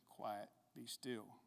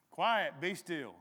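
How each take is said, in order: First: Slow, soft, low scripture reading; quiet command. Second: Irritated command. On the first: A narrator's reading. Reader voices Jesus commanding the waves, quiet and slow. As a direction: hush it slowly, low and measured. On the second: Acted. Woken Jesus orders the storm, loud and irritated. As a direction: snap the order out loudly.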